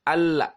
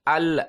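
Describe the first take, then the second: First: The L ends with an open a-like vowel. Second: The same.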